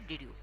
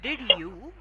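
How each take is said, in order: First: The words are reduced and run together. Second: Both words are said fully and separately. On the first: The speaker calls it right. "we say did you" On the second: The speaker calls it wrong. "Instead of saying did you"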